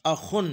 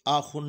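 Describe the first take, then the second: First: अखुन with a short, quick first "a"; crisp short "a" before "khun" in अखुन; correct short vowel. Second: आखुन with the first "aa" stretched; wrong long vowel. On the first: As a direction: cut the opening "a" of अखुन short. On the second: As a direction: lengthen the opening vowel of आखुन. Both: Shown as a demonstration. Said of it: "आखुन नहीं पढ़ेंगे".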